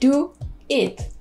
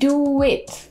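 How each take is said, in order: First: The two words are said separately, without a w. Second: A w sound links the two words together. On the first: The speaker calls it wrong. "우리 do it 라고 하지 않고" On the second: The speaker calls it right. "do it 이렇게 발음하잖아요"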